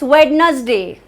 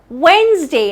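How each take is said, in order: First: The word is said with three syllables. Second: The word is said with two syllables. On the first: The speaker calls it wrong. "No, that's not how it's pronounced" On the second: The speaker calls it right. "It is not a trisyllabic word"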